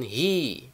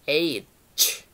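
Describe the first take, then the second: First: It is pronounced like hi. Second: It is pronounced like aitch. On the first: The speaker calls it wrong. "Ada yang mengucapkan hi" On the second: The speaker calls it right. "yang betul huruf H itu dibaca H"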